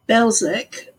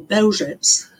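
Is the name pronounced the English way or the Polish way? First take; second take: English; Polish. First: The name is said with English sounds. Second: The name is said with Polish sounds.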